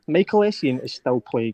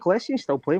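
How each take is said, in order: First: It is said slowly. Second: It is said fast.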